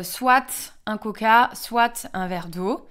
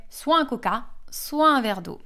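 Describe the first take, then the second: First: "soit" said as "swat" both times, slowly; slow, final t of "soit" clearly sounded; Belgian pronunciation. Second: "soit" said as "swa" both times; "soit" with silent t, no liaison; French pronunciation. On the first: Belgian teacher giving her own example, soit pronounced "swat". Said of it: "j'aurais tendance à dire". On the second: Teacher quoting the French, soit pronounced "swa". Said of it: "Les Français vont dire". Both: Shown as a demonstration.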